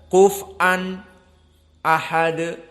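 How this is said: There is a brief pause before the last word. "berhenti sejenak"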